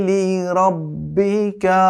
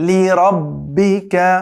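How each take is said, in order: Both takes have the same delivery.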